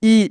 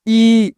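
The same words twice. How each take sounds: First: ई said short and clipped, barely held; teacher shows short ई: ई kept brief, not drawn out. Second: ई drawn out long and held; teacher shows long ई: stretch ई out. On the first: Teacher demonstrating to students, ई said short. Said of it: "छोटी ई को आपको थोड़ा कम खींचकर पढ़ना है". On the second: Teacher demonstrating to students, ई stretched long. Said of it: "लंबा थोड़ा खींचकर उच्चारण करना है". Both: Shown as a demonstration.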